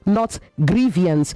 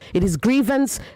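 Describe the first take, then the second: First: An extra ee vowel follows the v. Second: No extra vowel sound follows the v. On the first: The speaker calls it wrong. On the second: The speaker calls it right. "There is no I after the V. It is grievance"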